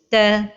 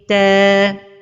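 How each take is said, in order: First: The vowel is cut short before full length. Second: The vowel is held for its full length. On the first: The speaker calls it wrong. "de ne pas donner le temps exact de la prolongation, comme ceci" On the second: The speaker calls it right. "et la prononciation correcte est ta"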